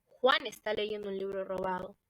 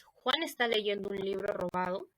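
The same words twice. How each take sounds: First: "Juan está leyendo un libro robado" as an exclamation, emphatic, with weight on Juan. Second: Rising question tune through "¿Juan está leyendo un libro robado?", lifting at está; question intonation. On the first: Teacher demonstrating an exclamation to students, emphatic tune. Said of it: "si lo decimos de forma exclamativa". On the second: Teacher demonstrating a question to students, rising tune. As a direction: ask it, pitch rising to the end. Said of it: "si lo hacemos de forma interrogativa". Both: Shown as a demonstration.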